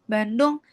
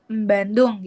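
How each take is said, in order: First: The B starts plainly with no nasal before it. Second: A nasal sound comes before the B.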